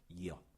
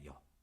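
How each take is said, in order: First: Two vowels are said slowly as separate sounds. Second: Two vowels are said quickly as one glide.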